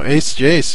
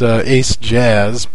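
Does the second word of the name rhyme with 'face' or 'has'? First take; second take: face; has. First: The second word rhymes with 'face'. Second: The second word rhymes with 'has'. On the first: The speaker calls it right. "but no" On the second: The speaker calls it wrong. "if you want to pronounce it wrong and invoke his wrath"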